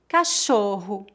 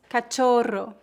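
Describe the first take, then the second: First: The double r sounds like an English 'h'. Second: The double r is a rolled 'r' sound. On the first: The speaker calls it right. "e sim" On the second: The speaker calls it wrong. "não dizemos"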